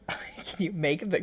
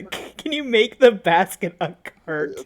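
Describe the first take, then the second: First: Soft unvoiced whisper. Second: Said in the usual way. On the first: Real, not acted. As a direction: breathe the words, no voice. Echoing a question, whispered.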